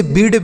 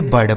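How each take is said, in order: First: बीड with a long ee vowel; mispronounced बीड. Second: बर्ड with a short uh before r; correct pronunciation बर्ड. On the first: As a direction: say बीड wrongly, with ee for the i. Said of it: "गलत उच्चारण है". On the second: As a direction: say बर्ड with i turned to uh, falling low. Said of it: "इसे बर्ड पढ़ा जाएगा". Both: Shown as a demonstration.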